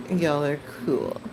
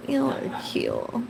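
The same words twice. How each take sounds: First: Said in the usual way. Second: "Y'all" sung out high and slow; playful high sing-song on "Y'all"; higher, slow y'all are cool. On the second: Shown as a demonstration. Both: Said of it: "They really are cool".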